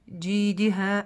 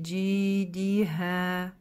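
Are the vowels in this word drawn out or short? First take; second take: short; drawn out. First: The vowels are all said short. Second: The long vowels are drawn out. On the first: The speaker calls it wrong. "коротко, да, тоже не читаем" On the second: The speaker calls it right. "То есть мы здесь тянем"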